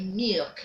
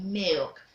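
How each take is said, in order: First: Milk said the mistaken way, as a counterexample; rejected pronunciation. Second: Milk said as the teacher's corrected model; model pronunciation. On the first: Teacher shows pupils what to avoid, wrong milk. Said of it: "you don't say milk". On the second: Teacher corrects pupils, model pronunciation of milk. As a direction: give milk as the correct example. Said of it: "You say milk". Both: Shown as a demonstration.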